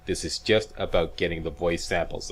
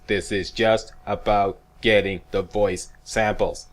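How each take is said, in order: First: Said in the usual way. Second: Slow, deliberate, every word leaned on; each word of getting the voice samples pressed down; read my lips. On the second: Shown as a demonstration. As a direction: spell it out slowly for the nitpickers. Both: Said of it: "read my lips".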